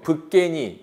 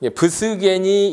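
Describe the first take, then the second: First: A b is followed directly by tensed k. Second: An s sound is spoken between b and g. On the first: The cluster is read as b plus a tensed consonant. "이렇게 읽을 수도 있고" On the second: The cluster is read as three separate consonants. "이렇게 할 수도 있고"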